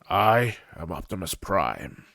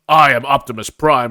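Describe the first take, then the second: First: It is said in a calm, warm, gentle manner. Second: It is said in a bold, showy heroic manner. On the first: A fatherly figure is speaking. The speaker calls it right. "strong enough to be gentle" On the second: A typical movie hero is speaking. The speaker calls it wrong. "a quote unquote Hollywood hero"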